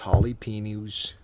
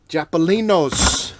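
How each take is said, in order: First: The word begins with 'ja-la', standard order. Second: The word begins with 'ja-pa', swapping consonants.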